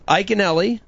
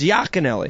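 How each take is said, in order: First: The name starts without a Y sound. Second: The name starts with a Y sound. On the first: This is the pronunciation used in the States. The speaker calls it wrong. "is how I pronounce my name here in the States" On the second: This is the original pronunciation of the name. The speaker calls it right. "Is the correct pronunciation of my last name"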